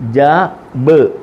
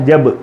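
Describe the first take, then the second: First: The two sounds are said apart with a break. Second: The two sounds are joined in one syllable. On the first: The speaker calls it wrong. "അങ്ങനല്ല" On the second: The speaker calls it right. "ജബ് എന്നാണ് പറയേണ്ട"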